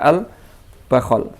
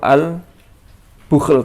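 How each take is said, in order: First: The first vowel is a, then another a. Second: The first vowel is u, then no vowel. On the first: This is another accepted reading. "bi fathil ba'i wal kha" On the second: This is one accepted reading. "bi dhammil ba'i wa sukunil kha"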